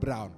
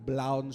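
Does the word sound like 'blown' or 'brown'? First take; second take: brown; blown. First: The R is said as a normal R sound. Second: The R is said as an L sound. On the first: "bukan brown" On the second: "Kalau orang Bali bilang brown sugar"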